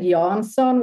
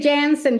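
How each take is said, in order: First: The name is said with Swedish pronunciation. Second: The name is said with American pronunciation. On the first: Listeners would misspell it. "which is what I would say in Swedish" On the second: Listeners can understand and spell it. "I say Jansen just because then people get it"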